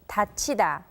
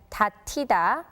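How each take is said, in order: First: The middle syllable sounds like 'chi'. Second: The middle syllable sounds like 'ti'. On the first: The speaker calls it right. "the correct pronunciation is" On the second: The speaker calls it wrong. "we would think the passive form would be read as"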